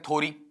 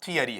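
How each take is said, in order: First: The first syllable is a plain 'tho'. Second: Three syllables with 'ya' in the middle. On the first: The speaker calls it wrong. "बच्चे कई बार ऐसा पढ़ देते हैं" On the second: The speaker calls it right. "जो real sound मेरे पास में आता है"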